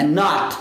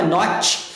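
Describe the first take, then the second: First: "not" with the final T held, unreleased; T preso. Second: "not" with the final T audibly released, "notch"; T solto. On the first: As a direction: stop the T of "not" on the palate. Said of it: "você segura esse T no céu da boca". ("not" segurando o T no céu da boca) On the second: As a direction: let the T of "not" pop out. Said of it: "você não solta". ("not" soltando o T no final) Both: Shown as a demonstration.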